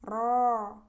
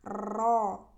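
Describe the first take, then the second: First: The r has a short, light trill. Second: The r has a long, heavy trill. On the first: The speaker calls it right. "Ro yang tebalnya ya" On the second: The speaker calls it wrong. "Contoh huruf ro yang berlebih getarannya seperti ini"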